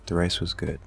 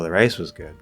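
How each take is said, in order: First: It is said as a plain, even statement. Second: The voice rises and falls on 'rice'. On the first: The food was genuinely good. "That's just a basic statement" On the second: The other items were not good. "We are giving attentional intonation, focus to a particular item"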